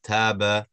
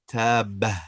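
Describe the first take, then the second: First: "taba" slow and clean, no ha at the end; "taba" ending cleanly without breath; correct taba. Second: "taba" with an added breathy ha at the end; "taba" ending in a little ha sound; wrong taba. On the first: Teacher modelling the right way, slow clean "taba". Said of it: "It's just taba". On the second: Teacher showing the student's mistake, "taba" with extra ha. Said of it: "Try not to add that". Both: Shown as a demonstration.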